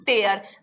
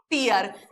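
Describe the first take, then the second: First: टेयर said as "tare", rhyming with care; pronounced tare. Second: टीयर said as "teer", rhyming with near; pronounced tear. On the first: Teacher answering her own quiz, टेयर as "tare". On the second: Teacher answering her own quiz, टीयर as "teer". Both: Shown as a demonstration. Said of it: "क्या पढ़ते हैं?".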